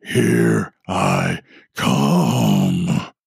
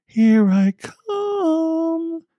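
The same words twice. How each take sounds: First: Lower, very slow growling demon voice; deep demonic growl. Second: Put-on very high, slow, drawn-out teasing child voice; teasing little girl. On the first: Acted. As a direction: drag it out like a demon from below. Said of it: "a deep, growling, demonic-sounding voice". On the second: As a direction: stretch it out like a playful creepy girl. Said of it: "the little girl's voice, laughing teasingly".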